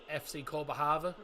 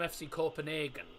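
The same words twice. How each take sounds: First: The city name has its Danish pronunciation. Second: The city name has its English pronunciation. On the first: This is the official local name. "officially, their name is pronounced" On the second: This is the common outside name. "that's the English way of saying it"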